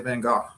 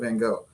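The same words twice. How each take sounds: First: The name is said with a British pronunciation. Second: The name is said with the usual pronunciation. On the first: "you're the first person I've ever heard say Van Gogh" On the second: "instead of Van Gogh"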